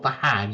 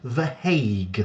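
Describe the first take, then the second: First: The vowel sounds like the one in 'hat'. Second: The vowel sounds like the one in 'hay'. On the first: The speaker calls it wrong. "not The Hag" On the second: The speaker calls it right. "it is pronounced The Hague"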